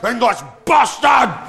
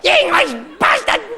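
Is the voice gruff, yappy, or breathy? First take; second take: gruff; yappy. First: It sounds gruff, like a coughing cow. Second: It sounds high and yappy, like a terrier.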